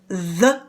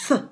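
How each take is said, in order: First: The th sound is voiced, with vibrating vocal cords. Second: The th sound is voiceless, with no vocal vibration. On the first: "you can feel your vocal cords vibrating. That's the hard sound" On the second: "that's the soft sound"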